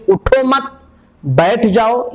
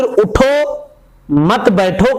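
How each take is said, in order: First: उठो मत joined and held high, break, then बैठ जाओ; pause after मत. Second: उठो high, a clear break, then मत बैठो together; pause after उठो. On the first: Teacher showing the first possible meaning, pause after उठो मत. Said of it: "मत पहले वाले के साथ है". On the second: Teacher showing the other possible meaning, pause after उठो. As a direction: attach मत to बैठो by pausing right after उठो. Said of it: "या बाद वाले के साथ है". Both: Shown as a demonstration.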